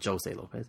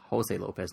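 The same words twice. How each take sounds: First: The first name begins with a J sound. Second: The first name begins with an H sound. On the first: The speaker calls it wrong. "not Jose Lopez" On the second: The speaker calls it right. "I prefer to call him Halo, if anything, because it's Jose Lopez"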